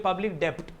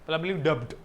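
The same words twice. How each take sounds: First: The b sound in debt is pronounced. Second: The b sound in debt is pronounced.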